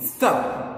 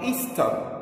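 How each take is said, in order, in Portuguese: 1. É pronunciado de um jeito inglês. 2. É pronunciado do jeito do português brasileiro.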